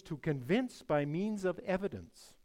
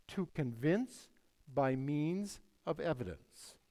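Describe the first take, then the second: First: Said in the usual way. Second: Slowly, phrase by phrase; measured and emphatic, taking time over each phrase; slow, deliberate. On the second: Real, not acted. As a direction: spell out the definition slowly, pausing after "convince". Repeats a definition for emphasis.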